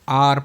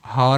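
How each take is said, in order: First: The word begins with a vowel, no h. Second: The word begins with an audible h sound. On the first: The speaker calls it right. "इसको आर पढ़ते हैं अपन ... एच silent होता है" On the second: The speaker calls it wrong. "हार नहीं पढ़ते"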